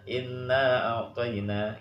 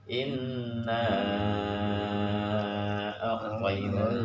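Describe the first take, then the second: First: The vowel at the end of inna is kept short. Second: The vowel at the end of inna is held long. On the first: It follows the other reading tradition's rule. "dia nggak mau baca panjang, bacanya sederhana" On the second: It follows our own reading tradition's rule. "Tapi kalau kita"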